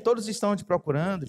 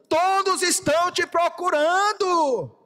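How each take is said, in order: First: It is said calmly at a normal volume. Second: It is said loudly, as a shout. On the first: There is no urgency. The speaker calls it wrong. "Pedro não chega assim" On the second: There is urgency and pressure. The speaker calls it right. "Pedro chega gritando"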